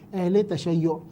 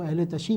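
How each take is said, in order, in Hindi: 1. दूसरा शब्द एक दोहरे 'shayyo' से खत्म होता है। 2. दूसरा शब्द एक छोटे 'shee' से खत्म होता है। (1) "ये इसकी जो प्रोनाउंसिएशन है" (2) "इस लफ्ज़ को सही नहीं बोला जाता है"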